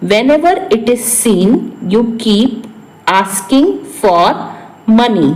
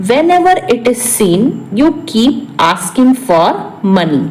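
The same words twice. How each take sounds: First: Broken into pieces, slowing toward the end; phrase-by-phrase repeat. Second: Said in the usual way. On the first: Shown as a demonstration. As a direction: dictate it in chunks to learners. Repeats translation in short pieces. (टुकड़ों में, ठहर-ठहर कर)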